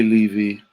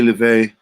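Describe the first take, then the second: First: "Levy" ending in a long ee. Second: "Levay" ending in an ay sound. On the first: Trying out how to read a viewer's name, "Levy" with final ee. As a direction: say "Levy" to rhyme with heavy-ee. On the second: Trying out how to read a viewer's name, "Levay" with final ay. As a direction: make "Levay" rhyme with away. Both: Shown as a demonstration. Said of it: "Levy or Levay?".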